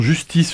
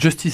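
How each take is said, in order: First: The name is pronounced with French sounds. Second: The name is pronounced with English sounds. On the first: The speaker calls it wrong. "si on le prononçait à la française" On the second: The speaker calls it right. "Justice et non Justice"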